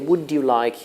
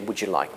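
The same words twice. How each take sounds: First: The d and y are kept separate. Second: The d and y blend into a j sound. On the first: It sounds old-fashioned. The speaker calls it wrong. "you sound very old-fashioned" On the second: It is what everybody says. The speaker calls it right. "everybody would say"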